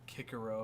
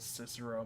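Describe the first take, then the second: First: The name is pronounced the classical Latin way. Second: The name is pronounced the usual English way.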